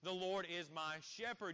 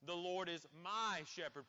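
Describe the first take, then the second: First: The stress falls on the word 'shepherd'. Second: The stress falls on the word 'my'. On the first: The Lord's role as a shepherd is the point. "You could place an emphasis on the word shepherd" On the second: The shepherd belongs to the speaker personally. "placing an emphasis on that word my"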